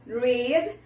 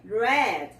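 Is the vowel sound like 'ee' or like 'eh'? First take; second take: ee; eh. First: The vowel sounds like 'ee'. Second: The vowel sounds like 'eh'. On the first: The action happens in the present. "No presente tem o som de I" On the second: The action happened in the past. "no passado tem o som de E"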